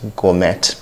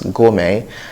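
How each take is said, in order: First: The final T is pronounced. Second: The final T is silent. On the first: The speaker calls it wrong. "others that have not seen the word before might possibly call it gourmet" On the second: The speaker calls it right. "The T in this word is silent"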